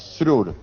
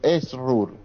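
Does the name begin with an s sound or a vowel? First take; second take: s sound; vowel. First: It starts directly with an s sound. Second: It starts with a short e vowel. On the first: "Apoyate en la S y después la R" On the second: "no le salía, me puso Esrur"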